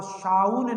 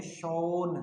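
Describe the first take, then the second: First: "शाउन" with an "ow" vowel as in town; "शाउन" with आऊ instead of ओ; mispronounced shown. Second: "शोन" with a long "oh" vowel; "शोन" with ओ, not आऊ; correct shown. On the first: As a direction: say "शाउन" rhyming with brown, wrongly. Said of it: "इसको आप शाउन नहीं बोलते". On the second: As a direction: say "शोन" rhyming with bone. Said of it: "इसको बोलते हैं शोन". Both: Shown as a demonstration.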